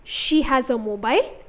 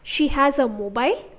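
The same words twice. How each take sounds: First: The pitch rises at the end. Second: The same.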